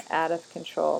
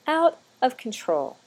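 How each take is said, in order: First: Said in the usual way. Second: "out of control" drawn out slowly, higher and louder; exasperated but amused "out of control", slow and raised; emphatic out of control. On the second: Real, not acted. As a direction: lean hard on "out" and stretch the whole phrase. Lantana, refrain said with emphasis.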